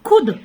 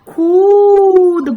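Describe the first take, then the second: First: The u vowel is said short and quick. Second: The u vowel is drawn out long. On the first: "जल्दी से मात्रा का उच्चारण ... छोटा छोटा उच्चारण रहा उसका" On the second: "बड़े समय के लिए आपने मात्रा का उच्चारण किया"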